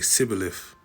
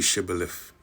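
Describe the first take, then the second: First: The word begins with an 's' sound. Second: The word begins with an 'sh' sound. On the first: The speaker calls it wrong. "He'd say Sibboleth" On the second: The speaker calls it right. "He couldn't say Shibboleth"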